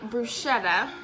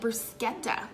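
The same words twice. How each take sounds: First: The middle consonant is a soft sh sound. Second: The middle consonant is a hard k sound. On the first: This is how people here say it. "I know people say bruschetta" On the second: This is how people in Italy say it. "like it had a K or a, like a hard consonant sound"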